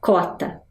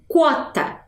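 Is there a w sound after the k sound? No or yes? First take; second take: no; yes. First: No w sound follows the k sound. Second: A w sound follows the k sound. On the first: "mas eu também posso falar cota" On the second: "Eu trouxe aqui com Q U, porque a gente está trabalhando, né, com a pronúncia dessa palavra"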